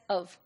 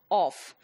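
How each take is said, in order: First: The final consonant is a v sound. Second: The final consonant is an f sound. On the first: This is the standard British way. "a British speaker would pronounce it as of" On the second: This is the Pakistani way. "but we pronounced it as off"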